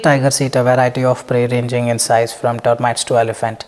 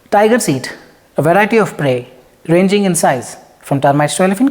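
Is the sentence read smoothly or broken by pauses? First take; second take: smoothly; pauses. First: It is read smoothly without unnecessary pauses. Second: It is read with unnecessary pauses between words.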